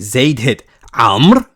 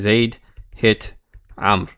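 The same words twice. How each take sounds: First: It is said in a shocked tone, stressing Amr. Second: It is said in a plain, neutral tone.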